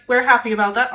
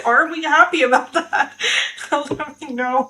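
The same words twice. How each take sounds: First: Said in the usual way. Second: Laughing, doubtful question; giggly, rising are we happy; teasing doubt. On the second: Real, not acted. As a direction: tease whether happy is true.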